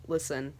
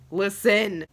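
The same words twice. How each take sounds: First: Low, soft opening word; quiet attention-getter. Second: "Listen" hit loud and firm; emphatic LISTEN. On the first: Fan to viewers, quiet attention-getter. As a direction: say it softly and low. Softer first take before emphatic repeat. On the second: Fan insisting to viewers, emphatic "Listen". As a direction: punch the word "Listen". Emphatic repeat of the same word. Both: Real, not acted.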